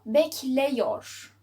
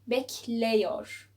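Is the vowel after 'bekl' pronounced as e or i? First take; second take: e; e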